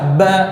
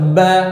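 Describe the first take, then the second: No difference in how they are said.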